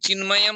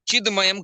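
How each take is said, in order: First: The consonant before 'mayam' is a nasal. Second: The consonant before 'mayam' is a plain stop. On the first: The speaker calls it right. "इसमें नित्य अनुनासिक ही होगा" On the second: The speaker calls it wrong. "कभी नहीं होगा"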